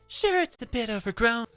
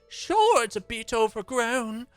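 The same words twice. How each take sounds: First: It is said in a less Southern accent. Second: It is said in a strong Southern accent.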